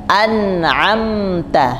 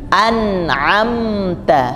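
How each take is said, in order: The two takes are said the same way.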